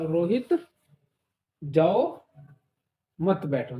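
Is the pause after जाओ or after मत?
after जाओ. The pause comes right after जाओ.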